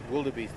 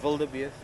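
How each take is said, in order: First: The word begins with a W sound. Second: The word begins with a V sound. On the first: This is how an English speaker says it. "the English version, Monty, is like this wildebeest with a W" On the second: This is how an Afrikaans speaker says it. "you would say the W as a as a V"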